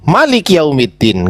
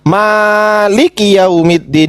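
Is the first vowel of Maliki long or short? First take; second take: short; long. First: The first vowel of Maliki is short. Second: The first vowel of Maliki is long. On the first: "nggak ada alifnya" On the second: "ada alifnya"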